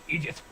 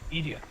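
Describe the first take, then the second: First: The word ends with an audible T sound. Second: The word ends without any T sound. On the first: "How would you say that in French?" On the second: "just without the T at the end"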